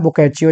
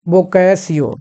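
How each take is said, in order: First: The middle consonant is a 'ch' sound. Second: The middle consonant is an 's' sound. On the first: The speaker calls it right. "ये बोकैचियो है actually" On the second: The speaker calls it wrong. "मैं इसको पढ़ रहा था अभी तक बोकैसियो"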